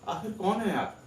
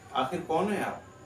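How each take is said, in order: First: It is spoken on the highest note. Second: It is spoken on a slightly higher note.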